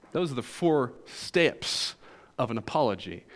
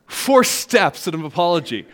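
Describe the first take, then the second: First: Southern accent. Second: Said in the usual way. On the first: Real, not acted. Preacher's Southern accent slipping out on "four steps". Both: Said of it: "my southern accent just came out there".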